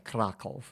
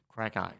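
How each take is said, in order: First: The name is pronounced like the Polish city. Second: The name is pronounced the local Australian way. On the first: This is how outsiders would say the town's name. The speaker calls it wrong. "spelt like the one in Poland, but the locals don't say Krakow" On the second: This is how the town's residents say its name. The speaker calls it right. "they say Krakow"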